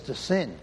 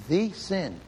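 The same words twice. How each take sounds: First: Said in the usual way. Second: "the" said as "thee" for emphasis; "the" stressed with a long ee vowel. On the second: Shown as a demonstration. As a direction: lean on "the", pronounced thee, before sin. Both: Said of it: "It's not sins, it's the sin".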